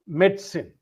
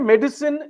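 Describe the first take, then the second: First: It is said in two syllables, med and sin. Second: It is said as a full three-syllable word. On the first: "The syllables are med and sin" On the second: "Americans pronounce it as a full word"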